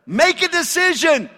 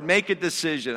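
First: High and loud, pushing hard on every word of "Make a decision"; impatient command. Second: Said in the usual way. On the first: Retold or imitated. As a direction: shout "Make a decision" as an exasperated order. God's command, loud take.

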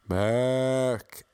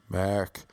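First: Drawn-out American "Mark" sounding like "Merrick"; American mispronunciation. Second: Said in the usual way. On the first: Retold or imitated. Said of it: "Accent issues? ... Not Merrick". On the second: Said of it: "Accent issues?".

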